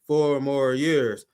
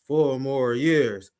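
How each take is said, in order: The two takes are said the same way.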